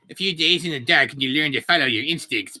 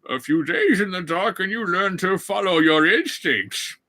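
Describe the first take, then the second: First: It is spoken in a different, unintended voice. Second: It is spoken in the intended character voice. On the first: The speaker calls it wrong. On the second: The speaker calls it right.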